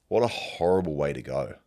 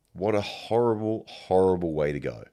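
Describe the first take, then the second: First: Said in the usual way. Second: "horrible" leaned on hard and doubled; stress on horrible. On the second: Real, not acted. Musing aloud on being burnt alive, stressing "horrible". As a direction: dwell on each "horrible", the second falling.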